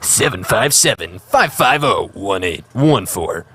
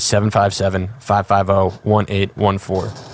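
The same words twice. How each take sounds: First: It is read in a booming announcer voice. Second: It is read in a plain, ordinary voice.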